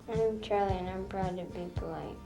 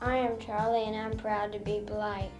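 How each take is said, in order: First: It is mumbled quietly and unclearly. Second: It is said loudly and clearly.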